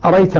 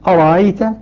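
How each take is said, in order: First: The second glottal stop is dropped entirely. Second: The second glottal stop is softened, not fully closed. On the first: "يحذف الهمزة الثانية منها الكسائي" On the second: "نافع يسهل الهمزة يبقيها لكنها مسهلة"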